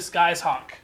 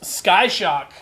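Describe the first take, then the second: First: The name is split as sky's plus hawk. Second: The name is split as sky plus shock. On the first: "possibly Sky's Hawk" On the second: "First is Sky Shock"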